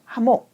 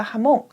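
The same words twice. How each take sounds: First: 하몽 with the stress on 하, the first syllable. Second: 하몽 with the stress on 몽, the final syllable; stress on the last syllable. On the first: Teacher showing the rule-based reading, 하몽 stressed on 하. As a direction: hit 하 and let 몽 fall away in 하몽. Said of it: "뒤에서 두 번째 음절에 강세를 줘서 읽어줘야". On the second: Teacher showing students the correct stress, 하몽 stressed on 몽. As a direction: lean on the end: 하몽, stressing 몽. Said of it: "뒤에 강세를 줘서 읽는데요". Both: Shown as a demonstration.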